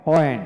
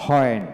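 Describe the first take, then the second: First: ওয়েন opening straight on a w sound; ওয়েন as "wen", louder teaching demo; without the h. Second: হোয়েন opening on a breathed h. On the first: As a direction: model ওয়েন with no breath at the start. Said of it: "IPA সিম্বলে গিয়ে দুইটাই". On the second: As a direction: model হোয়েন as "hwen". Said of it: "Bangla একাডেমি ডিকশনারিতে হোয়েন উচ্চারিত". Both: Shown as a demonstration.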